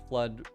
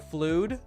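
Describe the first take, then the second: First: The vowel is a short uh sound. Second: The vowel is a long oo sound.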